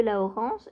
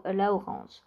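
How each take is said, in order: First: Said in the usual way. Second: Whispered aside. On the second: Real, not acted. Colour repeated under her breath.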